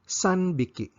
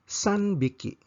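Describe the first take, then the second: Both takes have the same delivery.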